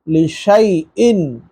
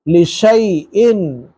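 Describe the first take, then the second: First: The middle vowel is an 'ay' sound. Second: The same.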